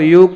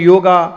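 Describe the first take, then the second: First: It is said with a plain Hindi pronunciation. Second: It is said with an English accent, ending 'a'.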